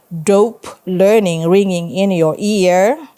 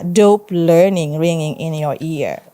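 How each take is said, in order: First: Slow "Dope learning ringing in your ear" rising on "ear"; announced, questioning. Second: "dope learning ringing in your ear" with a falling end; falling repeat. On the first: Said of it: "He announced what he had heard". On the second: Narrator repeats the garbled message. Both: A narrator's reading.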